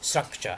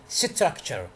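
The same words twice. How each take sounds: First: The three opening consonants are said together. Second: A vowel is inserted between the opening consonants. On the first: The speaker calls it right. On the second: The speaker calls it wrong.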